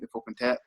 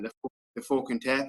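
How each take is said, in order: First: It is said very fast. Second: It is said at a normal speed.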